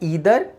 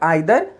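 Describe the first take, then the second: First: The first vowel sounds like 'ee'. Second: The first vowel sounds like 'eye'. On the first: This is the American form. "American accent या American English" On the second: This is the British form. "British English"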